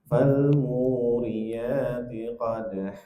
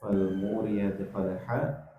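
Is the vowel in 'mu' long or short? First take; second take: long; short. First: The vowel in 'mu' is long. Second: The vowel in 'mu' is short. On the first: The speaker calls it right. "munya pan panjang" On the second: The speaker calls it wrong. "munya pendek"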